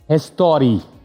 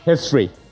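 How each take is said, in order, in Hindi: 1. शब्द में एक अतिरिक्त स्वर है, histori। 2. शब्द history सादे तरीके से बोला गया है।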